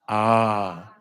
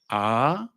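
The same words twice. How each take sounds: First: The vowel is held longer. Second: The vowel is short and plain.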